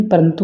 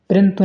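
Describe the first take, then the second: First: Said in the usual way. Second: परंतु as "prantu", first vowel dropped; mispronunciation. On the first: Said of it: "परंतु होता है". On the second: Shown as a demonstration. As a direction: run p straight into r in परंतु. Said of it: "परंतु नहीं". (परंतु को 'प्रंतु' बोलकर)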